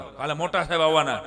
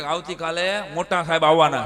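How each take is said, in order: First: Ominous teacher voice; louder spooky warning; scaring the kids. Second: Loud warning teacher; louder threatening teacher; scaring the kids. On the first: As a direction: warn the class with a threat. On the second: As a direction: announce it to frighten the class. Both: Retold or imitated. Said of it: "બીક બતાવતા".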